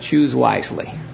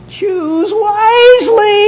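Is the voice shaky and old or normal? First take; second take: normal; old, shaky. First: It is said in a normal steady voice. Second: It is said in an old, shaky voice.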